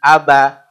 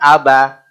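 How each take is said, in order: The two takes are said the same way.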